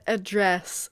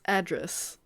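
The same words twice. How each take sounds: First: "address" stressed on the second syllable, a-DRESS; "address" as the verb, a-DRESS. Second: "Address" stressed on the first syllable, AD-dress; "Address" as the noun, AD-dress, softer. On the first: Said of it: "the verb". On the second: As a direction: softly try "Address" as AD-dress. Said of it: "the noun". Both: Shown as a demonstration.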